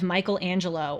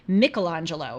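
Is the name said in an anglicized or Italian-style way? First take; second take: anglicized; Italian-style. First: The name is said in an anglicized way. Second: The name is said in an Italian-style way.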